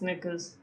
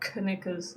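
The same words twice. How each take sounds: First: The K at the start is silent. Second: The K at the start is pronounced. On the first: The speaker calls it right. "Silent K on the word knickers" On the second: The speaker calls it wrong. "it's not knickers"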